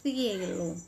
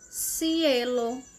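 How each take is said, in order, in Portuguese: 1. A primeira consoante é um som de 'th', com a língua entre os dentes. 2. A primeira consoante é um som de 's' sibilante. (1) "Na Espanha, ... com a ponta da língua entre os dentes" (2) "Na Argentina, ... Com o som de S"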